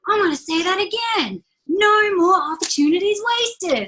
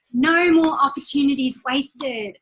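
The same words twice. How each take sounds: First: Imitating motivational speaker. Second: Said in the usual way. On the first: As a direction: ham up the big motivational speaker line. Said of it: "big dark man in it that's like".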